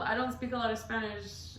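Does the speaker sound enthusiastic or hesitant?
hesitant. It is said hesitantly, without enthusiasm. The speaker calls it wrong. "not like, oh"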